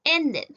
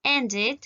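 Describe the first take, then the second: First: "ended" with a full eh in the ending, en-DED; "ended" misread as END-ehd; wrong -ed pronunciation. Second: "ended" with an i in the ending, END-id; "ended" as EN-did. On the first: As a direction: sound the second E of "ended" as eh. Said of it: "Yo no voy a decir". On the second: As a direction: sound the second E of "ended" as a short i. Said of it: "voy a decir aquí". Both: Shown as a demonstration.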